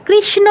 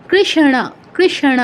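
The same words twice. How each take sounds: First: কৃষ্ণ said krishno, plain n and o ending; wrong Bengali reading. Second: কৃষ্ণ as krish-na with retroflex n and open a; retroflex Sanskrit demo. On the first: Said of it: "বলা যাবে না". (কৃষ্ণ, সাধারণ ন দিয়ে ক্রিশ্নো) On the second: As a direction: curl the tongue for the na in কৃষ্ণ. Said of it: "এরকম". (কৃষ্ণ, মূর্ধন্য ণ স্পষ্ট) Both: Shown as a demonstration.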